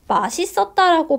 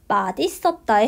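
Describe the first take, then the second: First: The second syllable starts with an s sound. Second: The second syllable starts with a d sound. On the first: This is the everyday pronunciation. "제가 맛있었다라고 발음했지만" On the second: This is the standard pronunciation by rule. "원칙 발음은 맛있었다에 해당해요"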